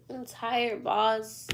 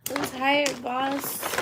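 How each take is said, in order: First: Said in the usual way. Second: Higher put-on voice. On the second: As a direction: repeat it in a higher character voice.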